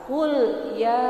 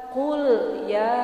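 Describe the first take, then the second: Both takes have the same delivery.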